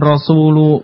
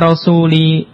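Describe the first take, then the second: First: The word ends with a u vowel. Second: The word ends with an i vowel. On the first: The speaker calls it wrong. "bukan rasulu" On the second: The speaker calls it right. "kenapa dibaca rasuli"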